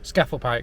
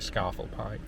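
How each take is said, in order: First: The first vowel is short, like 'cat'. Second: The first vowel is long, like 'car'. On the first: This is the speaker's own way of saying it. "Scafell Pike for me" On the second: This is how some other people say it. "some people pronounce it Scarfell Pike"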